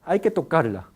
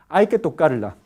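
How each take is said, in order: Both takes have the same delivery.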